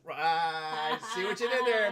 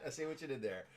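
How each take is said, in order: First: Booming, drawn-out mock appreciation; playful exaggerated holler; hammed-up loud reaction. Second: Said in the usual way. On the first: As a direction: belt it out slowly, high and very loud. Hammed reaction to listener's pun.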